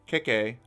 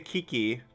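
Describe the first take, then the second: First: The syllables do not sound like key. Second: Each syllable sounds like the word key. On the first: This is how another player says the name. "He says Keke" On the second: This is how one person in chat says the name. "you say it like key, key, like the word key twice"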